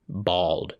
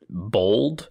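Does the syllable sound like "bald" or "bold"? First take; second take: bald; bold. First: The vowel is open, as in "bald". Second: The vowel is rounded, as in "bold". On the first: "B-A-W-L-D is how they're spelling that second syllable there" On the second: "I think both of us pronounce it bold"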